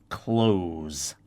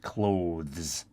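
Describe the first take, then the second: First: The word ends with a plain z sound. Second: The word ends with a th then z sound. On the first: The speaker calls it wrong. "will pronounce it close, like close the door" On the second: The speaker calls it right. "That's how it's pronounced"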